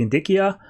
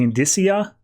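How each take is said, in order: First: "indicia" said with a hard c, in-DICK-ee-uh; "indicia" with the c as k, stress on DICK; "indicia" pronounced in-DICK-ee-uh, hard k; second try at the word. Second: "indicia" with the c as s, stress on DISS; first try at the word. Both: Shown as a demonstration. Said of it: "I never pronounced this right".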